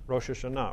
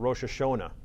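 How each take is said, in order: First: The name is said without Yiddish influence. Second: The name is said with Yiddish-influenced pronunciation.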